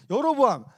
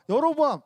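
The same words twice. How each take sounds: First: 여로보암 with a rolled r, half air half voice, loud and high; Hebrew pronunciation. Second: 여로보암 again with a rolled r, breathy and high; Hebrew pronunciation repeated. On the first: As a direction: say 여로보암 with the tongue rolled, breathy. (혀를 굴려 공기 반 소리 반으로 여로보암) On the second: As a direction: repeat 여로보암 with a rolled tongue, half air. (다시 한번 혀를 굴려 여로보암) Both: Shown as a demonstration. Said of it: "혀를 굴리고 공기 반 소리 반 이렇게".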